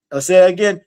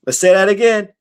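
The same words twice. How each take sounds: The two takes are said the same way.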